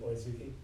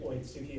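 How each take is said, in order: First: The middle consonant is a voiced 'z' sound. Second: The middle consonant is a voiceless 'ts' sound. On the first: The speaker calls it right. "it would be Oizuki" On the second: The speaker calls it wrong. "instead of"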